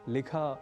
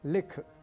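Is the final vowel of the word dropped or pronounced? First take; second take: pronounced; dropped. First: The final short vowel is clearly pronounced. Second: The final short vowel is dropped. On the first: The speaker calls it right. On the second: The speaker calls it wrong.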